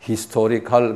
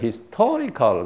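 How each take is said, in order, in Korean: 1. 강세는 두 번째 음절에 있지 않아요. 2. 강세는 두 번째 음절에 있어요. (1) "그러면 그 사람들이 못 알아들어요" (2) "여기 이제 액센트가 있어요. historical 그래요"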